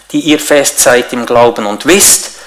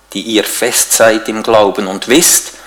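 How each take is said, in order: The two takes are said the same way.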